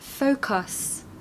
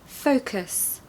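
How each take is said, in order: First: The unstressed u is a full clear vowel. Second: The unstressed u is a weak uh sound. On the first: "Without the schwa" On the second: "And for the U vowel"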